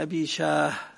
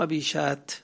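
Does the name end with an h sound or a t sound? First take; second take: h; t. First: The name ends with an h sound. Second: The name ends with a t sound. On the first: The speaker calls it right. "وهو بالهاء" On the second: The speaker calls it wrong. "مو أبي شات"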